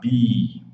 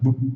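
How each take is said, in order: First: The consonant is followed by a long vowel. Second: Only the consonant is heard, with no vowel. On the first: The speaker calls it right. "Então o som fica longo" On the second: The speaker calls it wrong. "Se não pronunciarmos o som da vogal, só fica consoante, aí fica bu ... fica estranho"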